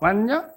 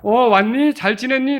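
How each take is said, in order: First: The greeting sounds curt and indifferent. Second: The greeting sounds warm and glad.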